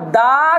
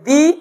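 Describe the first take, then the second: First: The vowel of 'the' is a short 'uh'. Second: The vowel of 'the' is a long 'ee'. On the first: The next word starts with a consonant. "আর দা cat" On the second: The next word starts with a vowel. "দি বলতে গেলে vowel দিয়ে শুরু হতে হবে"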